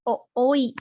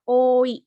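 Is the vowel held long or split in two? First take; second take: split; held long. First: The o vowel is broken into two separate beats. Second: The o vowel is held as one long sound. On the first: The speaker calls it wrong. "Dibacanya bukan o-oi" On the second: The speaker calls it right. "tapi oi, dibaca panjang"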